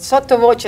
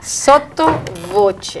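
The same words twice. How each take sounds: First: Said in the usual way. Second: "Sotto voce" slowly, word by word; "Sotto voce" drawn out with deliberate care; careful pronunciation. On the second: Shown as a demonstration. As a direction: stretch out "Sotto voce" to get it right. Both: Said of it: "still I'm not getting it right".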